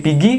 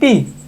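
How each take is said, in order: First: The word is shortened, with the r dropped. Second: The word is cut down to one syllable. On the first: A shortened local form of the word. "sering banget disingkat" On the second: The shortest local form of the word. "bisa jadi pi"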